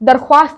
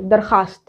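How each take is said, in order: First: A w sound is pronounced after the kh. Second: No w sound is pronounced after the kh. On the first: The speaker calls it wrong. "दरख्वास्त नहीं" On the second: The speaker calls it right. "वाव जो है ना वो छुप जा रहा है"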